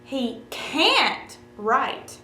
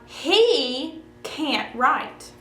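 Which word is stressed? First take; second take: can't; He. First: The stress is on "can't". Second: The stress is on "he".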